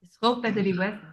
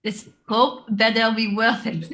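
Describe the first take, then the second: First: Put-on restrained French-accented delivery. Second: Put-on louder French accent breaking into laughter. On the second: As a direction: struggle through the French accent and crack up. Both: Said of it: "a hard thing to say in a French accent".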